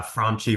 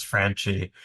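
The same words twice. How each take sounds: First: Franchi as FRON-chee, open ah; Franchi with broad A. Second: Franchi as FRAN-chee, the A of cat; Long Island A. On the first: Host contrasts two ways to say the surname, Franchi as FRON-chee. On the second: Host contrasts two ways to say the surname, Franchi as FRAN-chee. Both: Shown as a demonstration. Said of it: "we love that A sound in Long Island".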